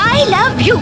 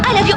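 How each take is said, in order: First: It is said warmly and tenderly, with affection. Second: It is said impatiently, as if under protest. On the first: The words are meant sincerely. The speaker calls it right. "లవ్లీగా చెప్పాలి" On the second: The words are said only to get it over with. The speaker calls it wrong. "అబ్బా I love you సరేనా?"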